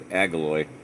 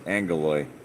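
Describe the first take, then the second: First: The double g is said as a plain g. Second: The first g is said as an n sound. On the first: The speaker calls it wrong. "You would say think it was Agiloi" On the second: The speaker calls it right. "The first one is an N, so they're Angoloi"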